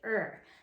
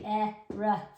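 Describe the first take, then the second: First: The letters are blended into one single sound. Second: Two separate sounds are said one after another. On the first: The speaker calls it right. "We say er" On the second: The speaker calls it wrong. "we don't say"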